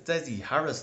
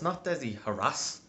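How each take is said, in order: First: The surname sounds like the plain name Harris. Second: The surname sounds like the word harass. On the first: The speaker calls it right. "my name is Desi Harris" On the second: The speaker calls it wrong. "not Desi Harass. Like, I'm not French"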